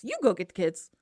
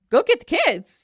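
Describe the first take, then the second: First: Lower, softer counter-order; firm retort. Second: Higher, indignant repeat; incredulous echo. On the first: Medea tells Jason to do it himself, low retort. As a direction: turn it back on him, dropping the voice. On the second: Medea echoes Jason's order to get the kids, incredulous. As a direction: throw the order back in disbelief. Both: Acted.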